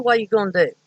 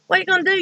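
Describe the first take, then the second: First: Said in the usual way. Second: Much higher, mock threatening repeat; mock menacing yell. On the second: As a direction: pitch it way up as an imitated threat. Man threatening in retold fight.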